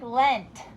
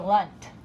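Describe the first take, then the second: First: The vowel is a clear short e. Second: The vowel is reduced to a short uh. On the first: This is how it is spelled. "We have to think lent" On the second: This is how it is normally spoken. "but we usually say lunt"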